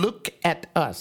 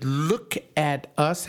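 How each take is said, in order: First: Falling, firm stress on "Look"; command. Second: Slow, ending on a rise at "us"; questioning tune. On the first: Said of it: "given in the form of a command". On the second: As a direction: ask "Look at us" as if it were a question, rising. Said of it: "That's not a question". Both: Shown as a demonstration.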